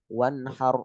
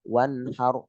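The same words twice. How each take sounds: Both takes have the same delivery.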